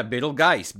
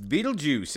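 First: "Beetlegeist" said slowly with a hard G and "-geist" ending; mispronounced Beetlejuice. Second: "Beetlejuice" said clearly with a "juice" ending; correct pronunciation. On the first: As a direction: echo "Beetlegeist" as the kid's wrong name, drawn out. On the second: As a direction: correct it to "Beetlejuice", a bit higher. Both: Shown as a demonstration.

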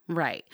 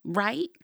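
First: RIGHT falling, as an answer; confirming. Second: RIGHT rising high as a question. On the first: Host answering her own question, confirming RIGHT with a falling tune. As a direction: drop RIGHT down to settle it. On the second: Host prompting listeners to agree, questioning RIGHT with a high rise. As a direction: lift RIGHT sharply upward, seeking agreement. Asks, then answers herself. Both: Acted.

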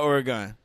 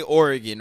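First: Oregon with a full "gone" ending; non-local Oregon pronunciation. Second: Oregon with a quick, weak "gin" ending; local Oregon pronunciation. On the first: Cohost shows what locals avoid, Oregon as OR-uh-gahn. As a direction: say Oregon as OR-uh-GAHN, open last vowel. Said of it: "It's not Oregon". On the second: Cohost shows what locals say, Oregon as OR-ih-gin. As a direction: say Oregon as OR-ih-gin, reduced last vowel. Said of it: "people out there say Oregon". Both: Shown as a demonstration.

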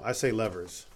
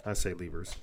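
First: "levers" said LEV-ers; short e as in "ever" in "levers". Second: "levers" said LEE-vers; long ee in the first syllable of "levers". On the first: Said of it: "actually, no". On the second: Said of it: "Do you say levers or levers". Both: Shown as a demonstration.

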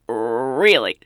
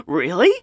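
First: "Really?" falling low and drawn out; a deep teasing Really? sliding down; knowing answer. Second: "Really?" rising louder at the end; an eager questioning Really?; surprised question. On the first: Clerk teasing William, low falling Really?. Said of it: "And she was like". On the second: William asking the clerk, rising Really?. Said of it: "And William said". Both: Retold or imitated.

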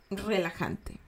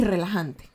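First: Much softer, soothing "relajante"; soft and relaxing. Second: Said in the usual way. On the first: Shown as a demonstration. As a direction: say "relajante" hushed, as if calming someone. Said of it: "y relajante". ("relajante" bajito y sosegado) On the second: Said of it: "me resulta diferente y relajante".

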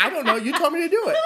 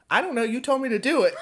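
First: Higher, breaking into laughter on the last words; laughing through it. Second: Put-on giggling girl. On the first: Retold or imitated. Babysitter retelling a girl's excuse, laughing. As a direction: repeat the girl's excuse while cracking up. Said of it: "And she'd be like". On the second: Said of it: "she'd be like".

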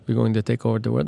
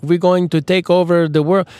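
First: Said in the usual way. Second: Mexican yet Transylvanian villain, higher and louder; half Mexican, half Transylvanian villain voice; mock villain accent. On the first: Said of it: "That was". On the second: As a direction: ham up a cartoon world-conqueror accent. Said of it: "That was a little bit, like, Mexican, but kind of Transylvanian".

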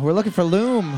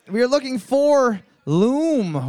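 First: Said in the usual way. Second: Big announcement. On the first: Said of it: "repeated answer". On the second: Shown as a demonstration. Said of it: "announcing the answer".

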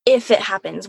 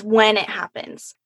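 First: If said lightly, as the weaker option; stress on if. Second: When stressed, falling firmly. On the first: Correcting herself from if to when, if said lightly. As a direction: if it happens, with if lightly touched. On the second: Correcting herself from if to when, when stressed firmly. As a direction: lean on the word when to correct if. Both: Shown as a demonstration. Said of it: "Not even that".

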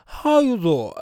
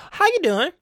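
First: Drawn 'doing' falling into a rounded 'zaw'; Wendy Williams. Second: High-pitched 'doing' clearly said as 'doo-in'; ordinary version. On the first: Retold or imitated. Host imitating talk-show host's real way, slurred catchphrase. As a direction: slur 'doing' with dropped lips. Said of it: "She's gonna be saying". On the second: Shown as a demonstration. Host showing what talk-show host won't say, ordinary 'doing'. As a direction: ask it high, 'doing' fully pronounced. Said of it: "not gonna be sa-, hearing Wendy Williams say".

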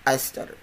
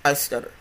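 The two takes are said the same way.

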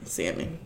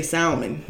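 First: "Salmon" with no L sound; silent L. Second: "salmon" with the L sounded; L pronounced. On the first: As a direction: say "Salmon" as SAM-un. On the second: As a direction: say "salmon" as SAL-mon. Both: Shown as a demonstration. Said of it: "People putting that L on there".

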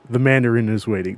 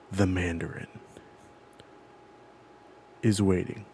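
First: Said in the usual way. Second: Low, hushed delivery with a long suspenseful pause after "Mandarin"; ominous movie line. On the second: Retold or imitated. Host setting a film's opening scene for his friend, ominous and hushed. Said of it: "the line that we hear".

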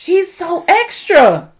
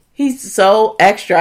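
First: Higher, slow, stretched exasperation; drawn-out exasperation. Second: Said in the usual way. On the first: Real, not acted. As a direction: drag it out, fed up.

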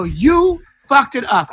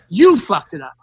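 First: High, slow accusation stretching YOU; mad, drawn-out retort. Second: Controlled anger, leaning on YOU; mad retort. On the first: Comic repeats it at a Trump heckler, high drawn-out blame. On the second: Comic answers a heckling Trump guy, low mad retort. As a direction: retort with "You" punched, the rest dropping low. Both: Retold or imitated. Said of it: "I got so mad".

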